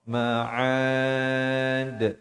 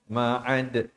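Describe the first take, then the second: First: The final vowel is held for two counts. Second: The final vowel is cut short. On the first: The speaker calls it right. "mesti tidak kurang daripada dua" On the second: The speaker calls it wrong. "Jangan waqaf dengan ma'ad, itu juga tak tak betul"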